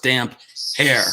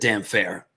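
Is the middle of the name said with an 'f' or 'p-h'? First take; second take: p-h; f. First: The middle is said as separate p and h. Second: The middle is said as an f sound. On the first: The speaker calls it right. "It is, of course, damp hair" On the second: The speaker calls it wrong. "my old pronunciation"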